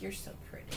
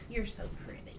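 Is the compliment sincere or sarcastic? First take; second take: sarcastic; sincere. First: It sounds like a sarcastic, mocking compliment. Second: It sounds like a sincere compliment.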